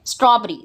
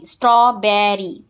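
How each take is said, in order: First: Said in the usual way. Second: स्ट्रॉबेरी broken into straw, be, ree; syllable by syllable. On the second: Shown as a demonstration. Teacher showing the class three syllables, स्ट्रॉबेरी said piece by piece. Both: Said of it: "Break the given words into syllables".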